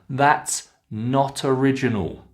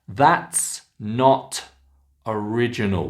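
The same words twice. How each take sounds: First: The T runs into the next word. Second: The words are said separately.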